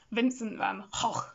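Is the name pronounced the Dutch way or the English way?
Dutch. The name is pronounced with Dutch sounds. The speaker calls it right. "Because he's Dutch ... you should say it Vincent Van Gogh"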